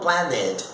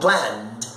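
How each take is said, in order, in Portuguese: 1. A terminação acrescenta uma sílaba extra com vogal antes do d. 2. A terminação é só um d, sem vogal. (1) "Eu não falo planned" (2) "Eu falo planned. ... eu não falo é, falo D"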